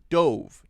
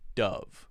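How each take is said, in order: First: The vowel is a long o, as in stove. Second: The vowel is a short u, as in love. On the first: It is the past form of dive. "It's the long O sound" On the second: It names the bird or the soap brand. "Dove is the short U sound"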